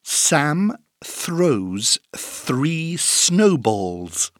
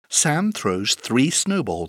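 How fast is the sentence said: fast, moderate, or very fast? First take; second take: moderate; fast. First: The sentence is said at a moderate speed. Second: The sentence is said fast.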